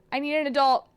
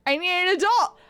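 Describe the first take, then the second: First: Said in the usual way. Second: Higher, louder mock-panicked plea; hammed-up shout for help. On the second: Streamer begging for an adult, mock-panicked shout. Same words escalated into panic.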